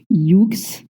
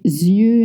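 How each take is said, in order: First: The word ends with a pronounced ks sound. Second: The word ends in a vowel with no ks. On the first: The speaker calls it wrong. "or I don't know, uh, yux" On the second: The speaker calls it right. "you don't pronounce the X"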